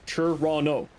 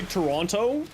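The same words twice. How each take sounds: First: The T sounds are dropped, local style. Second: The T sounds are clearly pronounced.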